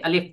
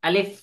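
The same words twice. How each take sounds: First: The final sound is made by closing both lips. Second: The final sound has upper teeth on the lower lip. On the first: The speaker calls it wrong. "আলিফ দুই ঠোঁট লাগায়, কিন্তু ওটা হবে না।" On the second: The speaker calls it right. "সামনের দুইটা দাঁত নিচের ঠোঁটের সাথে লাগবে এবং হালকা করে বাতাস বাহির হবে।"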